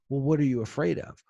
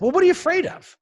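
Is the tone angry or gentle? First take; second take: gentle; angry. First: The question sounds soft and gentle. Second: The question sounds harsh and angry. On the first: The asker is caring and curious. The speaker calls it right. "notice the tone and voice that I, I asked that question" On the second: The asker is confrontational. The speaker calls it wrong. "Or what if I asked it like this?"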